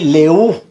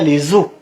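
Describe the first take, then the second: First: No linking z; the words stay separate. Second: A linking z joins les to the word. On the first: The speaker calls it right. "le H aspiré" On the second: The speaker calls it wrong. "on ne dit pas"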